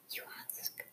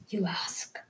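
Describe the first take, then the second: First: Distant whispered echo; faint echo. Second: Soft whispered aside; whispering. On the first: Pretend. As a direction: let it fade like an echo. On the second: Real, not acted. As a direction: whisper it to the viewers. Playful echo of own words.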